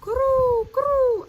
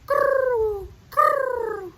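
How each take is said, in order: First: High, loud rolling croo; dove coo. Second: High, loud throaty croo; a truer dove coo, rolled; better dove coo. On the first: Acted. Reading doves' coo to children, high loud. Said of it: "The doves cooed". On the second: Shown as a demonstration. Teacher correcting her dove sound, throaty croo. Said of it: "it sounds a little more like this".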